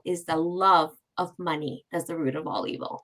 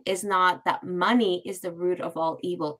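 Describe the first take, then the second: First: "love" leaned on as the key word; weight on "love", the rest falling away; stress on love. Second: "money" leaned on as the wrong part; stress on money. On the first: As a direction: hit "love" to correct the quote. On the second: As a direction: put the weight on "money". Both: Shown as a demonstration. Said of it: "there's a difference between it".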